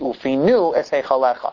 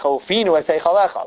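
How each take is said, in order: First: The stress falls on the last syllable. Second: The stress falls on the second-to-last syllable. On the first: The speaker calls it right. "It has to say" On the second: The speaker calls it wrong. "one has to be careful not to say"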